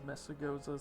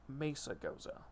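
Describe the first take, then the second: First: The name is said quickly in an anglicized way. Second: The name is said with Spanish-style pronunciation. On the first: "Just as a quick way of saying it" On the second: "the actual pronunciation of the city... Spanish"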